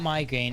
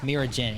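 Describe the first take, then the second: First: The name sounds like the word migraine. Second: The name sounds like mirror followed by gen. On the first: The speaker calls it wrong. "It's not migraine" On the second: The speaker calls it right. "it's Miragen"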